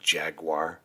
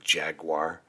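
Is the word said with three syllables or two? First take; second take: two; two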